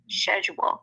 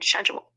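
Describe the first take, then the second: First: The word begins with an sh sound. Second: The word begins with an sk sound. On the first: The speaker calls it right. "it would be sh- schedule" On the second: The speaker calls it wrong. "Americans pronounce it schedule because they're confused about the C"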